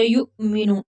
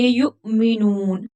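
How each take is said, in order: First: Said in the usual way. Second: युमिनून with a slight catch before मि and a slow long ऊ; jerked hamza. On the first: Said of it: "युमिनून नहीं पढ़ेंगे". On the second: Shown as a demonstration. Teacher showing the correct युमिनून. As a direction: give युमिनून a small jolt, then stretch. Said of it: "हिलाकर लफ्ज को पढ़ेंगे, झटका देकर".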